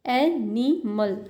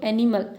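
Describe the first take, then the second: First: "animal" slowly in three pieces, stress on "ए"; first-syllable stress. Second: Said in the usual way. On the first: Shown as a demonstration. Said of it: "ए में है". ("Animal" तोड़कर, "ए" पर ज़ोर) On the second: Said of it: "ठीक है, पहले में है".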